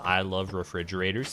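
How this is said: It is said in a flat, monotone voice. The speaker calls it wrong. "he doesn't say it like that, like in the most like monotone and boring way possible"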